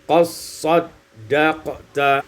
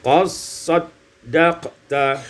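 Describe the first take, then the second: First: The d is merged into the s. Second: The same.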